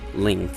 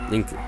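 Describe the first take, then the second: First: The name is said the English way. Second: The name is said the Japanese way. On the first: "It's it's simply Link" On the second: "his Japanese name, as shown here, is Linku"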